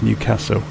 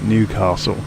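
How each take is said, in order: First: The stress falls on the second part, castle. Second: The stress falls on the first part, New. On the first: This is how local people say it. The speaker calls it right. "The stress is on the second part, and it's an A, not an R" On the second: This is how outsiders from the south say it. The speaker calls it wrong. "That's a very much a southerner way of pron- pronouncing the name"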